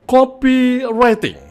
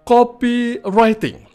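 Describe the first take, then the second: The two takes are said the same way.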